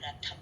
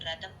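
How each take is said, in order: First: The middle consonant is aspirated. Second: The middle consonant is unaspirated. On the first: The speaker calls it right. "థో అనాలి" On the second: The speaker calls it wrong. "రథం కాదు"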